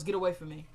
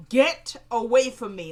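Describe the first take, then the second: First: Said in the usual way. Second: Retold scream. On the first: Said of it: "she screams it". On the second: Candace rebuffs the man pleading with her, retold scream. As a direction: yell it as if retelling a scream. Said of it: "Like, she screams it".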